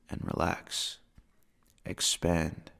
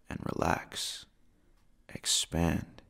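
No difference in how they are said.

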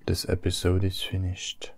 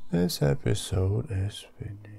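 First: Said in the usual way. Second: Whisper. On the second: Shown as a demonstration. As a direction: drop to a secret whisper. Repeats the line, then whispers.

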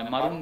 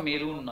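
First: "মারুন" with an a in the first syllable; correct vowel. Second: "মেরুন" with an e in the first syllable; "me" opening on "মেরুন"; wrong vowel. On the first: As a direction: say "মারুন" as ma-roon. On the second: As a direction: say "মেরুন" as me-run. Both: Shown as a demonstration. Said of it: "উচ্চারণটা মেরুন নয়".

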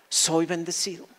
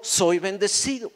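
First: "soy" stressed, the phrase dropping softer; quiet stress on soy. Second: "soy" hit hard; stress on soy. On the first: Preacher settling the point for the congregation, soft stress on "soy". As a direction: press "soy" gently. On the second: Preacher insisting to the congregation, stress on "soy". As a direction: lean on "soy". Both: Shown as a demonstration. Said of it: "repeated emphasis".

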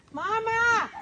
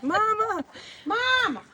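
First: Calling out. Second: High drawn-out call, village style. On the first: Real, not acted. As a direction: call out for mum from the gate. Calling for mum at the house. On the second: Retold or imitated. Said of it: "Як в селі кричать".

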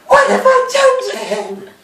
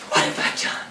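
First: Very high, hammed-up wail; mock anguished wail. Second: Very soft, low, nearly whispered; hushed mock remorse. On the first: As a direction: wail it in exaggerated remorse. Miss Havisham's remorse, escalated take. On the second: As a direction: murmur it in acted horror. Miss Havisham's remorse, first take.

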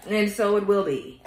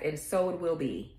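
First: Slow, louder, each word weighted on "so"; slow emphatic affirmation. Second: Said in the usual way. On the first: Acted. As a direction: seal it like an incantation, "And so it will be" drawn out. Repeated closing affirmation.

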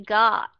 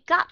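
First: "God" drawn out before a voiced d; correct long vowel. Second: "God" cut short like "got"; short "God" with a voiceless ending; mistaken short ending. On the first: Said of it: "không phải là dùng cái chữ". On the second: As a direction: stop the vowel of "God" early on a t. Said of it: "Họ sai cái chỗ nào". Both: Shown as a demonstration.

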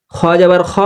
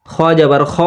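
Both takes have the same delivery.

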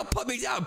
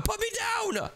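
First: Said in the usual way. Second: Much higher, panicked yell; shrieking at his brother to drop him; high shout. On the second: Acted. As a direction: squeal to be let down.

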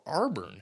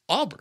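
First: Arburn said as AR-burn with a clear r; mock the coworker's Arburn, r sounded; wrong pronunciation. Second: Auburn said plainly as AW-burn, no r; correct pronunciation. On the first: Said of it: "He would say Auburn like Arburn". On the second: Shown as a demonstration. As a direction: Auburn with an open aw and no r sound. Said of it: "how you pronounce Auburn".

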